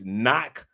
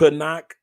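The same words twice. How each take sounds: First: The k at the start is silent. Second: The k at the start is pronounced. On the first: The speaker calls it right. "It's knock" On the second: The speaker calls it wrong. "but not knock"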